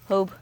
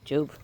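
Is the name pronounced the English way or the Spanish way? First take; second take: Spanish; English. First: The name is pronounced the Spanish way. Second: The name is pronounced the English way. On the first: "in Spanish" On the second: "in English"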